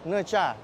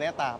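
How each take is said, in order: First: The middle consonant is a 'ch' sound. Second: The middle consonant is a plain 't' sound. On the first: It is said the way the original language says it. The speaker calls it right. "Kalau nggak salah tuh Necha" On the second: It is read the way the letters look. The speaker calls it wrong. "orang Indonesia ya, tahu tulisan kayak gini N E T A ya bacanya Neta"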